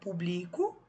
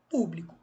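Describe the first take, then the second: First: The stress is on the second syllable. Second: The stress is on the first syllable. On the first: I publish. "O acento mudou" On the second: The public. "O acento mudou"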